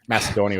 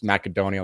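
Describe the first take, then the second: First: It is pronounced the usual way, as Macedonia. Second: It is pronounced to sound like macadamia. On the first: The speaker calls it right. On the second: The speaker calls it wrong.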